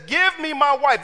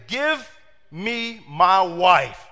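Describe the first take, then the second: First: Higher, louder, quick give me my wife; punchy insistent demand. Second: Very slow, weighty demand; slow insistent give me my wife; serious demand. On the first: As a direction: bark it at the father-in-law. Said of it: "This is the Bible". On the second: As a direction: drag each word out like a man done waiting. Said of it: "that brother was serious". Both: Retold or imitated.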